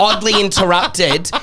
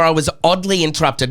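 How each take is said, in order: First: Oddly stretched slow, higher and laughing; laughing stress on oddly. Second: Oddly leaned on with a falling tune; stress on oddly. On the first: Teasing the co-host, laughing, slowly stressing oddly. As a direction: drag out oddly through a laugh. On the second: Pointedly stressing oddly to the co-host who cut in. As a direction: lean on the word oddly, pointed. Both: Shown as a demonstration. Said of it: "Not rudely, oddly".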